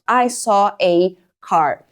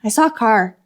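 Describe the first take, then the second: First: The word 'a' is said as full 'ay'. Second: The word 'a' is a short weak sound. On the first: The speaker is being emphatic. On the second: It is a plain statement.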